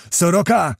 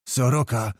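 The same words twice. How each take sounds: First: Higher, livelier call of a name; calling his name. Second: A muted, understated moan; groaned. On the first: Kmicic seeks his sergeant beside him, calling higher. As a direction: call to a comrade riding near you. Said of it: "rzekł Kmicic". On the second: Kmicic finally addresses the condemned soldier, groaning softly. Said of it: "jęknął wreszcie Kmicic". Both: A narrator's reading.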